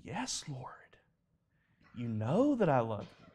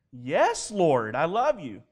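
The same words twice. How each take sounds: First: Hushed, whispered first words, pained reply; grieved. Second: Said in the usual way. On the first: Retold or imitated. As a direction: answer softly as a grieved Peter. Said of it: "Peter was grieved in his spirit".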